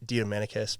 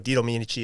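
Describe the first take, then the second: First: The name ends with a 'kiss' sound. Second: The name ends with a 'chi' sound.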